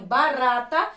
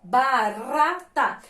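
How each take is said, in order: First: Said in the usual way. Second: "barata" very slow, in three separate syllables. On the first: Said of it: "Observa que a sílaba do meio". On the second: Shown as a demonstration. Teacher showing the weak middle syllable, slow and separated. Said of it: "a sílaba do meio é fraquinha".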